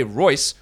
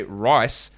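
First: "Royce" said slowly with a clear OY vowel. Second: "rice" said slowly with a clear EYE vowel; rice with long I. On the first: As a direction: enunciate "Royce" with an oy glide. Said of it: "If I say Royce or if I say rice". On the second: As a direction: enunciate "rice" with an eye glide. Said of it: "those two words are very different". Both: Shown as a demonstration.

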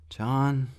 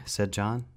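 First: A high, urgent call of a name; Rat calling. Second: Said in the usual way. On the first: Acted. Rat alarmed as screams come closer, calling John high.

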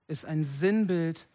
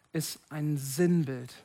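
Both takes have the same delivery.

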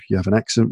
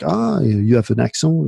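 First: Said in the usual way. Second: Imitated French listener. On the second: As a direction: mimic a French person noticing a foreigner's accent. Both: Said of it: "people after just a few sentences will be like".

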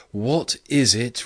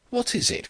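First: Higher, louder and slow, intoned like a chant; a triumphant, sung-out echo; splendid chant. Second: Much higher, sharp furious outburst; a cry of exasperated fury. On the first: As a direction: raise the voice into a grand chant. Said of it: "his voice raising in a kind of splendid chant". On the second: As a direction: fling the question out in final fury. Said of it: "cried Drummond ... in a sort of final fury". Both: A narrator's reading.

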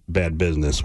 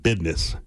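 First: Said in the usual way. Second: Business said as bidness, d for s. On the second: Retold or imitated. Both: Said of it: "He said it".

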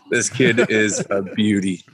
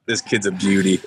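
First: Put-on "This kid is a beauty" drawn out slowly, word by word; slow right down on "kid is a beauty" to drive it home; slow emphatic repeat. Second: Said in the usual way.

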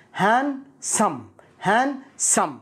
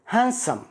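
First: "Handsome" split as han, sum, higher pitch; syllable by syllable. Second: Said in the usual way. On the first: Shown as a demonstration. Teacher breaking down "Handsome" for learners, slow and split. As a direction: break "Handsome" into two separated parts, no d.

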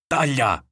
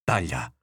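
First: Higher, more forceful command; escalated order, pitched up; repeated order. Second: Said in the usual way. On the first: A narrator's reading. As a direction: insist with a sharp raised cry. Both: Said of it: "ripeteva il nonno".

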